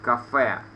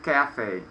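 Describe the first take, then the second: First: "café" the French way, stressed at the end; French accent on "café", as used in Russian; French-style accent. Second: "cafe" stressed on the first syllable; English pronunciation. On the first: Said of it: "we pronounce with the French accent". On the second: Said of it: "So we pronounce it cafe". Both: Shown as a demonstration.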